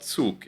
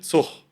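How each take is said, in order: First: The word ends with a hard g sound. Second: The word ends with a ch sound. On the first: This is the standard pronunciation. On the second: This is how people in some regions say it.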